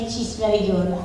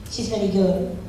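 Both takes have the same delivery.

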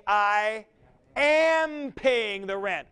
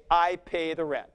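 First: "am" pitched high and drawn out, slow; slow, emphatic "I AM paying the rent"; stress on AM. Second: Said in the usual way. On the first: Shown as a demonstration. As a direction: lean hard on "am" in "I am paying the rent". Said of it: "you are focusing on your involvement". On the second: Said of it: "you wouldn't say".

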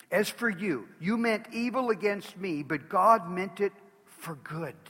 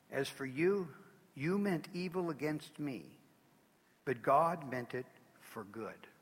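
First: Loud, slow preaching boom; loud preached proclamation; proclaimed. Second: Quiet reverent reading. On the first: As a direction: thunder it to the congregation. Preacher proclaims Joseph's words. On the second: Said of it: "one of the most amazing statements ever made". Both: Acted.

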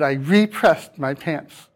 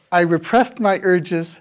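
First: "repressed" as REE-pressed, long ee; "repressed" meaning pressed again, REE-pressed; full RE prefix. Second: Said in the usual way. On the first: Shown as a demonstration. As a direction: stress the RE of "repressed" as a separate prefix. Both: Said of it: "but we say it differently".

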